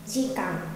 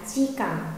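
The two takes are said the same way.

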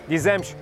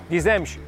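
The two takes are said the same way.

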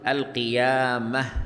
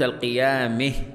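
First: The m carries a pure open a vowel. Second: The m carries a vowel leaning toward e. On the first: "لو فتحت الميم لقلت القيامه" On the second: "ولو أملت قلت القيامه"

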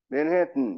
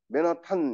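First: The last syllable is reduced with a held t. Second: The last syllable is a full, clear 'tan'. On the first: The speaker calls it right. "이렇게 해야지" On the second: The speaker calls it wrong. "이렇게 얘기 안 합니다"

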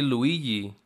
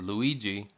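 First: The middle consonant sounds like a y. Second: The middle consonant sounds like a g.

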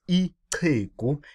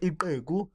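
First: The 'ch' is made as a tongue click. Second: The 'ch' is a plain sound without a click. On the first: The speaker calls it right. "but ichegu. Your tongue is to see cha cha cha like the watch" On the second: The speaker calls it wrong. "not ichegu"

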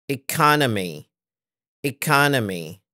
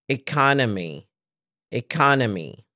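No difference in how they are said.

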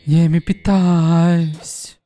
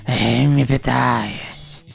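First: It is said in a plain, normal voice. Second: It is said in a wheezy anime-villain voice.

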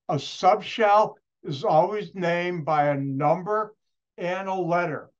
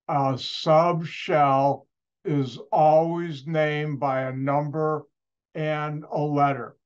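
First: It is said at normal speed. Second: It is said very slowly.

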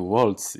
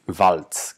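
First: The name is said the American English way. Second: The name is said the German way. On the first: The speaker calls it wrong. "jak wielką pomyłką jest mówienie Waltz. I to Amerykanie przyzwyczaili ludzi do takiej wymowy" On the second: The speaker calls it right. "nazwisko zdecydowanie powinno się wymawiać Waltz"

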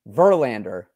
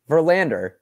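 First: The stress is on the first syllable. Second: The stress is on the second syllable. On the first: The speaker calls it right. "I need to put more emphasis on the beginning" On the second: The speaker calls it wrong. "You really emphasize the land on there"

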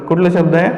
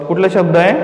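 Both takes have the same delivery.

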